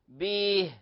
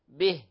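First: The short i vowel is stretched into 'ee'. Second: The short i vowel is kept short. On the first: The speaker calls it wrong. "يعني نجعل ياء قبلها" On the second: The speaker calls it right. "من غير مبالغة"

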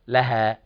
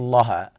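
First: The l sound is light and thin. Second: The l sound is heavy and thickened. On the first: The speaker calls it right. "لا مرققة" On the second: The speaker calls it wrong. "لا تقل لها"

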